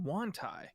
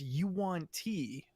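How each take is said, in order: First: The name begins with a single 'wan' sound. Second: The name begins with a 'yoo-an' sound. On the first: This is the old habitual way of saying it. The speaker calls it wrong. "I always called them Wantai" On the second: This is the official canon way of saying it. The speaker calls it right. "but it's Yuan T"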